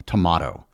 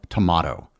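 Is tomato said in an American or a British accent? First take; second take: British; British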